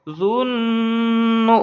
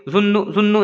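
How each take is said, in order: First: जुन्नु with a long hummed न; drawn-out, steady nasal hum inside जुन्नु; ghunna nasal hold. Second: Said in the usual way. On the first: Shown as a demonstration. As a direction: hold the न of जुन्नु in the nose, then release. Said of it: "गुन्ना करके पढ़ेंगे". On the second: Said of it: "नहीं पढ़ेंगे".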